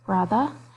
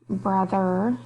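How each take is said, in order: First: The R sound is softened. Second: The R sound is fully pronounced. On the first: "soften the R sounds" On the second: "instead of"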